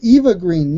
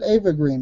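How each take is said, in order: First: The name begins with an 'ee' vowel. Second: The name begins with an 'ah' vowel. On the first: This is the commonly heard pronunciation. "I say Eva Green" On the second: This is the French way of saying it. "You said Ava Green"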